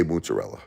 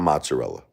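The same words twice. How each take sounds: First: Mozzarella with an OO first vowel, "moot-uh-rella"; Brooklyn pronunciation. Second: Mozzarella with an open AH, "mahts-uh-rella"; non-Brooklyn pronunciation. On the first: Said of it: "That's what we say". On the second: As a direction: say mozzarella as "MAHT-suh-rella". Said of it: "Not mozzarella". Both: Shown as a demonstration.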